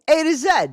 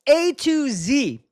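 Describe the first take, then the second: First: It is said British style, ending 'zed'. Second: It is said American style, ending 'zee'.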